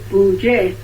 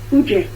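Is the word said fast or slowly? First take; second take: slowly; fast. First: The word is said more slowly. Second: The word is said quickly. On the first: It means rabbits gathering. "But if you pronounce it Buje" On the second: It means leather. "If you say it fast"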